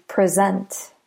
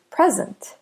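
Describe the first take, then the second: First: "present" as the verb, pre-ZENT; stress on second syllable. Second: "present" as the noun, PREZ-ent; stress on first syllable. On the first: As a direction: say "present" with a light first syllable, beat on SENT. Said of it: "If we stress the second syllable". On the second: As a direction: say "present" with the beat on PRE, light ending. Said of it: "stress the first syllable in present". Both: Shown as a demonstration.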